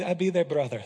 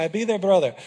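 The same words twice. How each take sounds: First: Said in the usual way. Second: Louder, calm and sure; Israel's calm reply. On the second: Retold or imitated. Pastor imitating Israel accepting the threat, calm and sure. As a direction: lightly voice Israel's steady answer. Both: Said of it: "That's how he said it".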